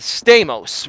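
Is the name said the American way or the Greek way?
American. The name is said with American pronunciation. This is the adapted form most people use. The speaker calls it wrong. "not Stamos"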